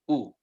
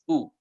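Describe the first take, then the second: Both takes have the same delivery.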